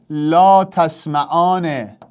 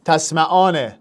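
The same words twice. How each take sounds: First: «لا تسمعان» drawn out very slowly, syllable by syllable; slow dictation. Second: Said in the usual way. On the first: Shown as a demonstration. Teacher dictating a verb for students to convert, very slowly. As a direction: spell it out slowly for the class. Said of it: "تو جلوتر از من اینو بساز". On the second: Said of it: "لاشو نمیخوام".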